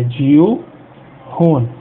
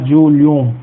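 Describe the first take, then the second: First: The L and H are pronounced separately. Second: The L and H merge into one sound. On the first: The speaker calls it right. "é Dil, Hun" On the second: The speaker calls it wrong. "A gente não vai falar Dilhon"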